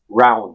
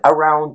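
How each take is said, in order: First: The word drops its first vowel sound. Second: The word has its first vowel sound. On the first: "to just round" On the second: "I shorten the word around"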